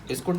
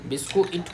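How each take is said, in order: First: The word is said as two syllables. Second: The word is split into three syllables. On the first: The speaker calls it wrong. "बिस्कुट नहीं" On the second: The speaker calls it right. "बिस्कू इट होता है"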